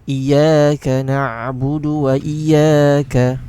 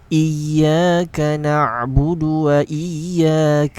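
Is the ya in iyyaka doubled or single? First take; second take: single; doubled. First: The ya sound is short and single. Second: The ya sound is doubled and held. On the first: The speaker calls it wrong. "A common mistake is to read it without the shaddah like this" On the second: The speaker calls it right. "emphasize the ya and then to release it like this"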